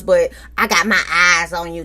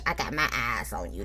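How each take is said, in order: First: Said in the usual way. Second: Far lower, far softer menacing murmur. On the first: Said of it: "Stormy just like". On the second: Retold or imitated. Host echoing Stormy's warning, low and hushed. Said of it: "That's what she tell us".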